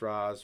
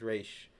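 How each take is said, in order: First: The name ends with a 'z' sound. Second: The name ends with an 'sh' sound. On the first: The speaker calls it wrong. "I will refer to him as Raz" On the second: The speaker calls it right. "they refer to him as Raish"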